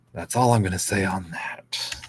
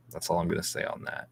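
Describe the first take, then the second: First: Said in the usual way. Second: Whispered under the breath, a little quick; a quick, soft whisper to close the topic; hushed aside. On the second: Real, not acted. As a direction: drop to a fast whisper as a private aside. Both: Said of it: "repeats line hushed then plain".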